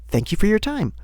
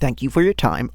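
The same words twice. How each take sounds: First: It is said in a bright, overly polite voice. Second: It is said in a plain, ordinary voice.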